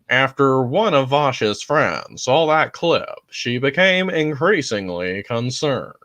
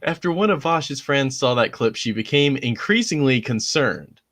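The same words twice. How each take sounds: First: It is read in a dramatic imitation voice. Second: It is read in the speaker's normal voice.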